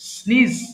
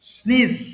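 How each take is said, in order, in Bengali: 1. স্বরটি 'see' শব্দের ee-এর মতো শোনায়। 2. স্বরটি 'see' শব্দের ee-এর মতো শোনায়।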